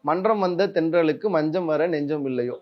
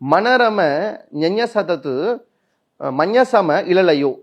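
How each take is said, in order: First: Consonant clusters are kept, forming normal words. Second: Consonants get added vowels, making nonsense syllables. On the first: The text is read with its dot marks. The speaker calls it right. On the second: The text is read without its dot marks. The speaker calls it wrong.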